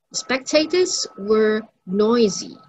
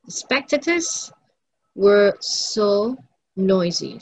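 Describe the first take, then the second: First: Said in the usual way. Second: Slow, stretched "so" before "noisy"; stress on so. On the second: Shown as a demonstration. Teacher emphasizing the adjective for class, stressing "so". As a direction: draw out "so" to boost "noisy". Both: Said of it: "let us emphasize this adjective".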